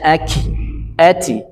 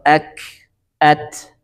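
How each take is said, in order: First: The final consonant bounces into a short 'i' vowel. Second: The final consonant bounces without any added vowel. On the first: The speaker calls it wrong. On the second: The speaker calls it right.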